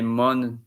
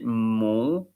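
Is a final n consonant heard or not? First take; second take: heard; not heard. First: A clear n consonant is heard at the end. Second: The vowel is nasal with no n consonant. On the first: The speaker calls it wrong. "You don't say mon, ton, son" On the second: The speaker calls it right. "You say mon, ton, son"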